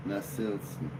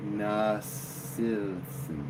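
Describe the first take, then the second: First: Said in the usual way. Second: Nasilson stretched very slow, each syllable drawn out; drawn-out name. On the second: Shown as a demonstration. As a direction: sound out Nasilson slowly, testing it.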